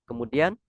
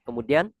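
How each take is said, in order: The two takes are said the same way.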